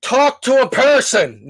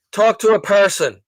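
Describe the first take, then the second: First: High, slow, loud demand to the phone; exasperated shout at the phone menu; louder call. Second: Raised call at the phone; mock demand to the phone system. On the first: Retold or imitated. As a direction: stretch it out and push it louder. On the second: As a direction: say it firm to the phone menu. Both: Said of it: "it just gets louder".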